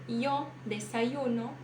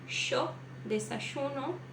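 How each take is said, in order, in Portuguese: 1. É dito com sotaque espanhol. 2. É dito com sotaque argentino. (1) "Um espanhol diria ... Como se você arrancasse aquele Y ali e colocasse um I no lugar" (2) "um argentino ou uruguaio diria"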